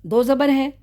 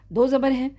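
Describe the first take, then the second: No difference in how they are said.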